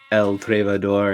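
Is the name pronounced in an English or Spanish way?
Spanish. The name is said with a Spanish pronunciation. The speaker calls it right. "like El Trevador in Spanish"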